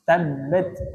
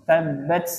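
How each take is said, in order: First: The final t has a slight, brief release. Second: The final t has a strong, hissing release. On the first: The speaker calls it right. "seharusnya dibaca tabat" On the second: The speaker calls it wrong. "Kalau banyak-banyak jadinya seperti sin"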